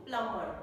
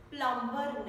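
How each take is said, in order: First: Said in the usual way. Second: "Plumber" with the silent b sounded; mispronounced plumber. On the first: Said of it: "It's plumber". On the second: Shown as a demonstration. Teacher showing learners the mistake, b sounded in "Plumber". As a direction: say "Plumber" wrongly, pronouncing its b. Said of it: "not plumber".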